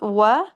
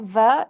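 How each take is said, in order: First: It starts with a w sound. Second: It starts with a v sound. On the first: The speaker calls it right. "it's wa" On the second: The speaker calls it wrong. "So it's not va"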